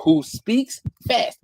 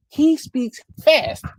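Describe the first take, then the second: First: Said in the usual way. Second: He speaks fast said much higher and slower, every word hit; emphatic repeat. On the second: Real, not acted. Stressing how fast DeFranco talks, emphatic.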